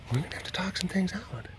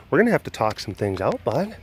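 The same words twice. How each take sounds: First: Whispered, as a mock warning; whispered talk to a suspicious cat. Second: Said in the usual way. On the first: Shown as a demonstration. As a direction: breathe it out quietly to the cat. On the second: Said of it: "repeated whispered".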